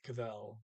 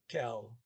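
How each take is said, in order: First: It is said with two syllables. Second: It is said as one short syllable. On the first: This is how other people say it. "other people will say "kavel" or something like that" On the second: This is how one speaker says it. "he he just says uh"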